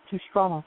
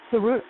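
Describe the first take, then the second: First: The middle of the name has an 'str' cluster. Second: The middle of the name has a plain 'r'. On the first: "I pronounce it Tsustrada" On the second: "that's how they pronounce it"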